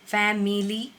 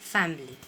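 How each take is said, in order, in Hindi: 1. m के बाद वाला स्वर बोला जाता है। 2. m के बाद वाला स्वर छोड़ दिया जाता है। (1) "Family नहीं करना है" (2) "I is silent over here"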